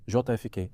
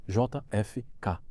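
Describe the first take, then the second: First: Said in the usual way. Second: J F K said letter by letter, slowly; slow spelled-out letters. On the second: Retold or imitated. Spelling the name slowly for the prosecutor. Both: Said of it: "Como se escreve?".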